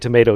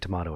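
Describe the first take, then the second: First: It is said with an American accent. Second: It is said with a British accent.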